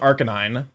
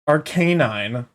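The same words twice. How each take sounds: First: The stress is on the first syllable. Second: The stress is on the second syllable.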